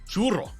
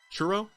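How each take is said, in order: First: The R is said as a rolled, trilled R. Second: The R is said as a plain English R. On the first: The speaker calls it right. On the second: The speaker calls it wrong.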